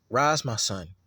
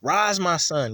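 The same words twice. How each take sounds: First: Said in the usual way. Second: A firmer, lifted call to rise; a mother's voice lifting her son up; strengthening. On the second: Shown as a demonstration. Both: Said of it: "she put strength in him".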